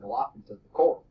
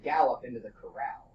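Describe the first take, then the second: First: The stress falls on unusual, shifted syllables. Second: The stress falls on the usual syllables. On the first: The speaker calls it wrong. "If you put the wrong emphasis on the wrong syllable" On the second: The speaker calls it right. "with the emphasis in the right place"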